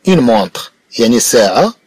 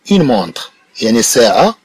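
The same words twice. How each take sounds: The two takes are said the same way.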